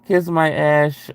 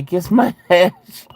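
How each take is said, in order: First: Slow "Kiss my ash" with the weight on "kiss"; emphatic in caps. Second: High, slow reading that breaks into a laugh; giggling through the epitaph she wants. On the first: Spelling out the urn inscription to chat, punching "kiss". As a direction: stamp "kiss" like it's in bold. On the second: Reading a viewer's urn wish, laughing through it. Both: Shown as a demonstration. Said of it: "in all caps and in bold letters".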